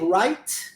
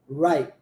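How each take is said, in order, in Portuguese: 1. O som final do T é claramente solto. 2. O som final do T é engolido e não solto. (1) "Não omitir o som do T" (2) "engolir o T"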